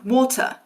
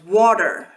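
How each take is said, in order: First: A southern British accent with no final R. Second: An American accent with a final R sound. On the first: "There's absolutely no trace of that R sound" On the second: "which Americans pronounce water. So you have that final R"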